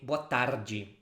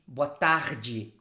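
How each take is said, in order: First: It is said in the speaker's home accent. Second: It is said in a Rio de Janeiro accent.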